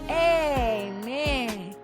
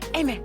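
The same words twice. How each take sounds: First: It is said slowly. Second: It is said fast.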